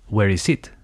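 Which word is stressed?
it. The stress falls on the word it. The speaker calls it wrong. "Most of my students would say, ... it doesn't sound very natural"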